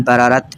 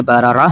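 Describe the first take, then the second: First: बरारत ending on a full t sound, the wrong way; बरारत with the t kept at the pause; wrong pausal form. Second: बरारा said with the pausal ha, not t; correct pausal form. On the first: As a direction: say बरारत with a hard final t. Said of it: "इस तरह नहीं पढ़ेंगे". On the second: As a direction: end बरारा on an open a, no t. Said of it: "बल्कि बरारा". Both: Shown as a demonstration.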